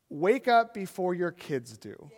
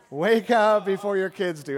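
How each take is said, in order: First: Slow, deliberate, each word weighed; slow emphatic secret. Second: Repeated louder and slow, pressed home; louder repeated secret. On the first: Preacher telling the church the secret, slow and deliberate. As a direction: lay the secret down slowly. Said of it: "The secret of raising children is this". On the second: Preacher repeating the secret to the church, louder and firmer. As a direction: hammer the point home. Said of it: "This is the biggest secret". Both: Shown as a demonstration.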